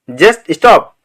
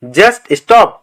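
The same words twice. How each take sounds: The two takes are said the same way.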